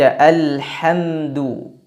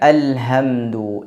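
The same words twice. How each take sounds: First: The h is breathy and deep in the throat. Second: The h is a plain, light h sound. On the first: The speaker calls it right. "yang seharusnya dibaca alhamdu" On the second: The speaker calls it wrong. "tapi dibaca alhamdu"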